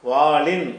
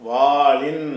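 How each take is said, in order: Both takes have the same delivery.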